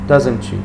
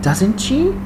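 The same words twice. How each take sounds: First: It sounds flat and cold. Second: It sounds surprised and emotional. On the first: It shows no interest. The speaker calls it wrong. "don't say like, ... it's so cold" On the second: The news is unexpected. The speaker calls it right. "Try to be like uh, emotional"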